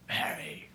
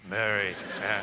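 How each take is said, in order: First: Unvoiced, tender whisper of her name. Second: Tender calling of her name. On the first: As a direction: breathe her name softly as Jesus. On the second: Acted. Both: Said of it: "I don't even know how you said it".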